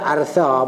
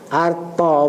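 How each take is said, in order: First: The name ends in an aspirated 'tha' sound. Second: The name ends in a plain 'ta' sound. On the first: "orang boleh baca artha pun boleh" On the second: "Arta pun boleh kan"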